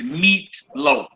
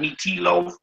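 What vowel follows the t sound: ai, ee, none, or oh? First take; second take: none; ee. First: No vowel is sounded after the t. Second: An 'ee' vowel is sounded after the t. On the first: The speaker calls it right. "So it says meat loaf" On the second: The speaker calls it wrong. "not meat tea loaf"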